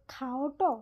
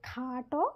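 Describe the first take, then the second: First: খাওটো with a light o after the aa, khao-ṭo; খাওটো glided as khaa-o-ṭo; faint o-glide. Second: খাটো with a long aa, khaa-ṭo; খাটো with no o-glide, khaa-ṭo; lengthened vowel. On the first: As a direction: slip a small o into খাওটো before ṭo. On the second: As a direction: hold the aa in খাটো straight into ṭo. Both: Shown as a demonstration. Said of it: "একই রকমভাবে".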